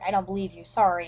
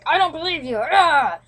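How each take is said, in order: First: It is said in a gentle, apologetic tone. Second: It is said in a harsh, angry tone.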